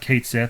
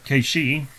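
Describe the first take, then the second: First: The name sounds like 'Kate Sith', read as spelled. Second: The name sounds like 'Kay-shee', without a th. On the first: "I always used to call it Kate Sith. That's what it looks like" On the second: "I'm pretty sure I butchered that still"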